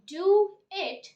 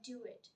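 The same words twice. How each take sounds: First: The two words are said separately. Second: The two words run together as one.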